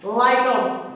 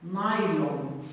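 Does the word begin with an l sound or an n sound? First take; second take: l; n. First: The word begins with an l sound. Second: The word begins with an n sound. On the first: This is a regional dialect form. The speaker calls it wrong. "Yine yöresel bir kelime. Şive'den dolayı" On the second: This is the standard form. The speaker calls it right. "laylon değil, naylon"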